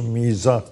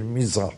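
First: The first vowel i is drawn out long. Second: The first vowel i is kept short. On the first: The speaker calls it wrong. "Doğrusu mizah değil" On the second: The speaker calls it right. "Kısa iyilik"

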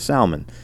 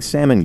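First: Salmon is said with a local regional pronunciation. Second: Salmon is said the usual standard way.

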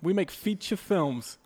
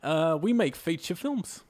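First: It is spoken in the speaker's normal accent. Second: It is spoken in an odd, put-on accent.

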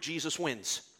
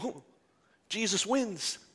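First: It is said calmly, without extra energy. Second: It is said excitedly, with rising energy.

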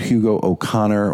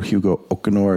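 First: The name is pronounced the English way. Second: The name is pronounced the Spanish way.

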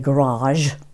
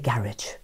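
First: The word has an American pronunciation. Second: The word has a British pronunciation. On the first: The speaker calls it wrong. "You don't say garage" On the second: The speaker calls it right. "you say garage"

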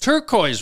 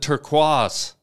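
First: The word has a plain English pronunciation. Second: The word has a French-sounding pronunciation. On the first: This is the ordinary way to say it. The speaker calls it right. "Turquoise, right?" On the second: The speaker is being fancy and trying too hard. The speaker calls it wrong. "I have a buddy who calls it turquoise"

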